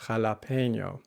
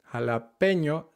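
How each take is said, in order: First: Jalapeño with an extra y sound after the e; jalapeño with an English glide; wrong anglicized jalapeño. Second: Jalapeño with pure e, no glide; crisp Spanish Jalapeño; correct Spanish jalapeño. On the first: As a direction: say jalapeño like a tourist. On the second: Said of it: "Jalapeño, not". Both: Shown as a demonstration.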